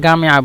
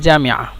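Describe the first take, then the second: First: The word begins with a hard g sound. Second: The word begins with a j sound. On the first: This is the regional dialect form. "জামিয়াকে তারা গামিয়া বলে" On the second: This is the standard form. "জামিয়াকে তারা গামিয়া বলে"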